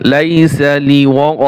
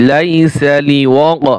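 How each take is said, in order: Both takes have the same delivery.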